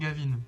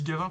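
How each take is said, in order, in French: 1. Le nom est prononcé à l'anglaise. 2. Le nom est prononcé à la française. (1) "j'ai la flemme de dire Gavin" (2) "par pure francisation"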